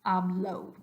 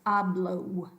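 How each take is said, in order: The two takes are said the same way.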